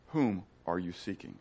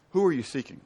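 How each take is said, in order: First: Soft Jesus line. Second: Said in the usual way. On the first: Acted. Preacher voices Jesus, softly.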